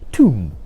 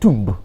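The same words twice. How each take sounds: First: The final b is silent. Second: The final b is pronounced. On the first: The speaker calls it right. "the B becomes silent" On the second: The speaker calls it wrong.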